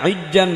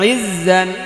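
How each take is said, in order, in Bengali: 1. মাঝের ব্যঞ্জনটি একটি শক্ত j উচ্চারণ। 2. মাঝের ব্যঞ্জনটি একটি লম্বা গুনগুনে z। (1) "এটা ইজ্জান ইজ্জান বলা যাবে না" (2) "দেখিয়ে দিলাম এভাবে পড়বেন"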